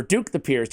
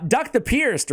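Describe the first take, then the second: First: "Duke" with a long oo vowel; DUKE pronunciation. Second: "Duck" with a short uh vowel; DUCK pronunciation. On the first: Host asking co-host which name is right, Duke said with long oo. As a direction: say "Duke" with an oo, as in nuke. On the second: Host asking co-host which name is right, Duck said with short uh. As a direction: say "Duck" to rhyme with luck. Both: Shown as a demonstration. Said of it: "Do you say Duck or Duke?".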